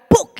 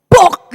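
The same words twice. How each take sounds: First: Buk diucapkan lebih ringan dan turun; bunyi buah jatuh pelan. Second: Buk diucapkan keras dan menghentak; bunyi buah jatuh keras. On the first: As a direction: tirukan debum kecil yang singkat. (buk, pendek dan pelan) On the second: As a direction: tirukan buah kelapa jatuh berdebum. (Buk, keras seperti buah jatuh) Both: Shown as a demonstration. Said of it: "Suaranya gimana saudara kira-kira".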